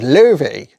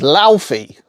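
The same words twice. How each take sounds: First: The name sounds different from its spelling. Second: The name is read just as spelled. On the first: The speaker calls it right. "the way you pronounce the name is Laufey" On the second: The speaker calls it wrong. "the way it looks is Laufey"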